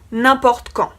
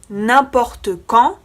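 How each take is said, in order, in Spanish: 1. La e final de importe se omite. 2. La e final de importe se pronuncia.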